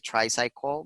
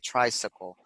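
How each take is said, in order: First: The middle 'cy' sounds like 'sigh'. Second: The middle 'cy' sounds like 'sick'. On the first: The speaker calls it wrong. "we don't say tricycle" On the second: The speaker calls it right. "but we say tricycle"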